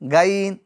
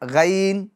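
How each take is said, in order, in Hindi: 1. यह अक्षर बारीक उच्चारित होता है, जीभ नीची रखी रहती है। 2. यह अक्षर बारीक उच्चारित होता है, जीभ नीची रखी रहती है।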